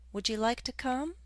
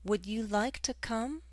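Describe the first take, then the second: First: Would and you blend together quickly. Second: Would and you are said as separate words.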